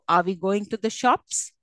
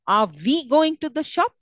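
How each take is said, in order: First: The stress falls on going and shops. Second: The stress falls on the word we. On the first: The question is about going to the shops. "going and shops are the content words" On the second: Going to the shops is already known; the focus is who goes. "could have stress on we and not on the two content words"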